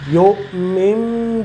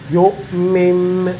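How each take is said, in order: The two takes are said the same way.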